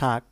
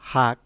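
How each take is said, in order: First: It is said with standard Bengali pronunciation. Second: It is said with a regional dialect pronunciation.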